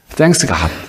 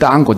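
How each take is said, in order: First: It is said with a standard, full pronunciation. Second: It is said clipped, sounding like 'ttan got'.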